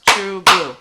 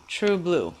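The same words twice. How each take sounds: First: "true blue" with both words hit loud; spondee: TRUE BLUE, equal punches; double stress. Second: Said in the usual way. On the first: Shown as a demonstration. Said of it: "Double stress". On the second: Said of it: "And the spondee".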